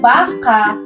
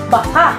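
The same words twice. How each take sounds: First: Said evenly, ending openly without a catch. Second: Said quickly, ending in a sharp glottal catch. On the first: A large tame farm animal, a cow. "Ito ay nasa diing malumay" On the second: Expresses doubt or uncertainty, maybe. "bibigkasin na mabilis at may impit na tunog o glutal na pasara"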